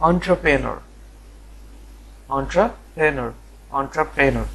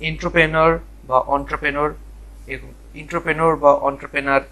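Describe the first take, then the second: First: এন্টারপ্রেনার as "on-tra-pre-nor", in clear parts; correct pronunciation. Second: এন্টারপ্রেনার as "intro-penor" or "ontro-penar"; rejected mispronunciations. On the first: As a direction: model এন্টারপ্রেনার starting "ontra", pausing before "prenor". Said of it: "এটা হচ্ছে". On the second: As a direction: say এন্টারপ্রেনার the wrong ways, starting "intro". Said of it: "এরকম কিছু না". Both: Shown as a demonstration.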